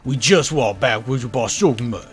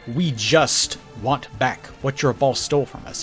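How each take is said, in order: First: The t in 'just' is dropped, loosely said. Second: Every word is said clearly, including the t. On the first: "he's not saying it with extremely clear diction" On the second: "it's not"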